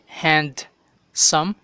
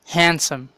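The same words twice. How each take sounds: First: The D sound is pronounced in the middle. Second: The D sound is silent in the middle. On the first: The speaker calls it wrong. "Dili handsome" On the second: The speaker calls it right. "Silent ang D"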